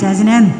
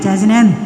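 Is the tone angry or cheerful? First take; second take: angry; angry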